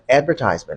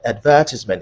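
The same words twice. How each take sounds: First: It is said with an American pronunciation. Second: It is said with a British pronunciation. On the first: "is for American English" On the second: "is for British English"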